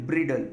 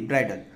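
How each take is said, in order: First: ब्रिडल with a short i, like brid-el; ब्रिडल read letter by letter, as written; spelling pronunciation. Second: ब्राइडल with a long ai, like bride-el; ब्राइडल, the proper English sound; correct pronunciation. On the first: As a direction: say ब्रिडल just as it is spelt, short i. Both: Shown as a demonstration. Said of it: "इसका pronunciation ब्राइडल है".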